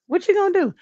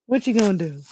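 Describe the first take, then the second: First: Much higher, sing-song shrug; high repeat. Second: Said in the usual way. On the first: Shown as a demonstration. Vlogger repeating the shrug to chat, pitched high. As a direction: toss it up high, resigned.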